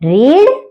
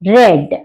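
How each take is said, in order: First: The vowel is long, like in 'reed'. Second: The vowel is short, like in 'red'. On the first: It is the present tense. "Present tense అంటే V one లో వచ్చేసరికి రీడ్" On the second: It is the past tense. "Pronunciation రెడ్"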